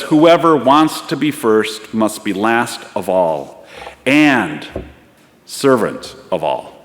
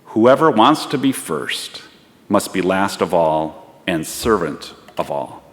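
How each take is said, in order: First: Slow, deliberate, with "and" set apart by a pause; emphatic quotation. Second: Slow start, settling gently lower; measured and understanding, dropping away at the end; quiet, understanding, clear. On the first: Shown as a demonstration. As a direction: punch "and", pause, then drop on "servant of all". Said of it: "putting a little twist on that phrase". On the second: Acted. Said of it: "The quiet, understanding, yet clear voice".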